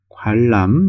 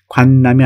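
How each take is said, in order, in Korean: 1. 가운데 자음이 합쳐져서 긴 ㄹ이 돼요. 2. 가운데 자음은 쓴 대로 읽어요. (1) "이렇게 읽어야 되겠죠?" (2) "관람이 아니고"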